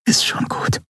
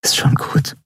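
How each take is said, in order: First: Soft unvoiced whisper, softer still. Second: Whisper. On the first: Endriel holding Keru, repeating it in a whisper. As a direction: barely breathe it, no voice. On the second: Endriel comforting the crying Skria, whispering. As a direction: breathe it gently, no voice. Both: A narrator's reading. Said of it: "flüsterte sie".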